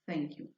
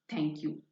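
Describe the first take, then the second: First: The th is a soft fricative with airflow. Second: The th is a hard stop sound. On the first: The speaker calls it right. "The correct pronunciation is thank you" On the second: The speaker calls it wrong. "It's a bad pronunciation"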